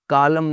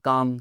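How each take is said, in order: First: An L sound is heard before the M. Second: No L sound is heard before the M. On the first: The speaker calls it wrong. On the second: The speaker calls it right.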